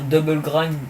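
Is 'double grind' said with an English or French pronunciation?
English. It is pronounced the English way. It sounds more stylish. The speaker calls it right. "pour moi c'est plus stylé"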